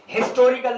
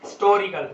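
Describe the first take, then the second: First: "हिस्टोरिकल" with a sounded initial h; H pronounced. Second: "हिस्टोरिकल" with the h dropped, like istorical; silent H. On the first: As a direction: say हिस्टोरिकल starting on an audible ह. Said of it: "ना पढ़े". (हिस्टोरिकल में शुरू का ह साफ़ बोलें) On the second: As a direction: leave the first ह off हिस्टोरिकल, unstressed first syllable. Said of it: "ज्यादा जोर ना दिया जाए". (हिस्टोरिकल को इस्टोरिकल जैसा, बिना ह के बोलें) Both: Shown as a demonstration.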